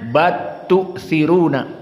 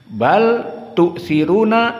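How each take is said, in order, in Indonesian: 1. Bunyi l melebur menjadi t ganda. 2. Bunyi l tetap dipertahankan sebelum t.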